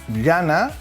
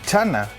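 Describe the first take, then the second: First: The word begins with a palatal ll-like sound. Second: The word begins with a ch-like sound. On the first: This is how it is said on one side of the isogloss. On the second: This is how it is said on the other side of the isogloss.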